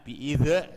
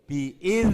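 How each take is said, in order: First: The final consonant bounces with an added echo. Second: The final consonant stops cleanly without an echo. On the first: The speaker calls it wrong. "biidz salah" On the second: The speaker calls it right. "Yang betul biidz mandek"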